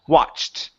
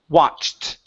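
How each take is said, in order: No difference in how they are said.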